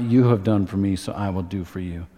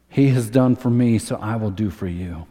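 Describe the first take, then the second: First: You have done for me, with You leaned on; stress on YOU. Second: HE has done for me, with the word He leaned on; the right version, He stressed. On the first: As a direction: push the word You as the wrong version. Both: Shown as a demonstration.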